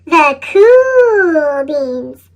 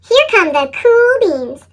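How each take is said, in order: First: Very slow, low and impressed; a smooth, admiring drawl; slow awed echo. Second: Said in the usual way. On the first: A narrator's reading. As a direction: stretch the words out in awe.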